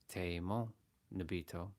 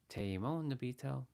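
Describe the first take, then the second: First: It is said coldly, without warmth. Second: It is said warmly, with affection. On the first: The words are not really meant. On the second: The words are sincerely meant.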